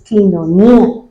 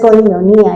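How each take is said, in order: First: The first syllable sounds like 'ki'. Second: The first syllable sounds like 'koi'. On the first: The speaker calls it right. "es quinonía" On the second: The speaker calls it wrong. "ni siquiera es coinonía"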